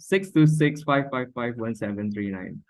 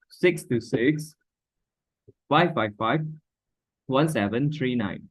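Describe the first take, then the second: First: The digits run together without pauses between groups. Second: The digits are grouped with short pauses between groups. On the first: The speaker calls it wrong. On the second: The speaker calls it right. "just like that"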